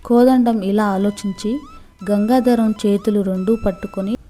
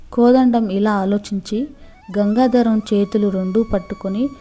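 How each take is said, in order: Both takes have the same delivery.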